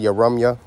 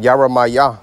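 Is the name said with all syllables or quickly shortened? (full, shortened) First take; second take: shortened; full. First: The name is said fast with a syllable dropped. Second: The name is said fully with every syllable. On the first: "some brothers say Yaramya ... brothers say it fast" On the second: "But Yaramaya"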